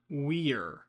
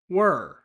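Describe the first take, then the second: First: The word is said in its full form. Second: The word is shortened to sound like wer. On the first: The speaker calls it wrong. "Not we're" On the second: The speaker calls it right. "This exact same shortcut"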